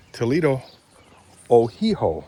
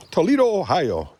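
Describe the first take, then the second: First: Ohio turned into "Ohiho", oh-HEE-ho; playful imitation, "Ohiho" with an h before the last o; Antina Chase's pronunciation. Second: Said in the usual way. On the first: Vlogger quoting a Canadian acquaintance, playfully saying "Ohiho" as oh-HEE-ho. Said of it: "As Antina Chase would say".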